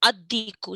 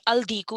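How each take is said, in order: First: The L merges into a doubled D sound. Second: The L of the article is clearly pronounced. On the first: The speaker calls it right. "it'd be ad diku" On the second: The speaker calls it wrong. "diku wouldn't be al diku"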